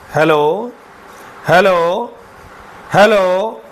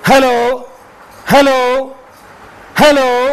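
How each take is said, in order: First: It is spoken at a normal volume. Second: It is spoken loudly and forcefully. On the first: "मैं एक बार normal बोलता हूँ" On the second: "ज़ोर से बोलूँगा"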